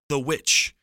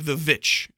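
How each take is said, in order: First: The word begins with a W sound. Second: The word begins with a V sound.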